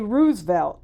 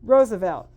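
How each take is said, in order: First: The name is sounded out as it is spelled. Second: The name is said in its standard pronunciation. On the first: This is how one reads it without having heard it. The speaker calls it wrong. "I would say Roosevelt" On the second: This is how the name is known to be said. The speaker calls it right. "but I know to say Roosevelt"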